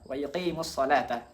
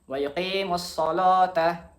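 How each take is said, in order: First: The L in salata is light and thin. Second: The L in salata is heavy and full. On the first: "Hafs kita baca" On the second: "maka la setelah itu dibaca lo"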